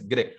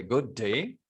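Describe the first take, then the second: First: "G'day" as one short "gde"; contracted pronunciation. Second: Said in the usual way. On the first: Shown as a demonstration. Teacher modelling the pronunciation for students, "G'day" squashed short. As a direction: drop the vowel of good in "G'day". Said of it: "So the pronunciation is". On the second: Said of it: "You have to write in this way".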